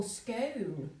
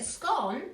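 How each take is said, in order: First: Long o in "scone", like "cone"; scone rhyming with cone. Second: Short o in "scone", like "gone"; scone rhyming with gone. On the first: Host offering the other option, "scone" rhymed with cone. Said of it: "But if you're cone". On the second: Host asking viewers how they say it, "scone" rhymed with gone. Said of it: "'Cause you go gone, scone, gone". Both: Shown as a demonstration.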